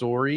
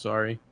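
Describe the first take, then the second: First: It is said with a Canadian-style pronunciation. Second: It is said with a plain American pronunciation. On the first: "to make fun of people who say sorry like that" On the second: "it's just sorry"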